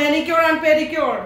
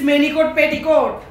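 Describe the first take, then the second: First: The words end with a 'cure' sound. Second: The words end with a short 'cot' sound. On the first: The speaker calls it right. "It's called" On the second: The speaker calls it wrong. "What is this ম্যানিকট পেটিকট?"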